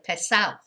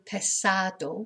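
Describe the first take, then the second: First: It is said in the local regional way. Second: It is said in the standard, careful way. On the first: "in my area of Spain, they do tend to say" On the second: "which they should pronounce it"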